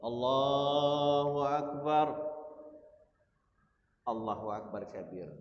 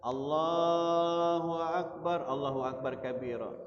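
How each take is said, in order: First: A short pause separates the two phrases. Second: The two phrases run together without a pause. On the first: The speaker calls it right. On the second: The speaker calls it wrong.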